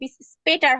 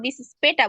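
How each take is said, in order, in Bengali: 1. শেষের 'r' ধ্বনিটি উচ্চারিত হয়। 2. শেষের 'r' ধ্বনিটি বাদ যায়। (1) "এখানে বিস স্পেটার হয়" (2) "কিন্তু আমরা বিস স্পেটা বলতে পারি"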